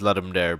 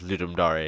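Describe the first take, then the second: First: It is pronounced like ordinary English words. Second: It is pronounced the way Latin is read. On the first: The speaker calls it wrong. "I used to pronounce it as" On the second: The speaker calls it right. "apparently it's pronounced as Ludum Dare because it's Latin"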